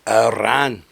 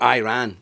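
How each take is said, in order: First: It is said with a British pronunciation. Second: It is said with an American pronunciation.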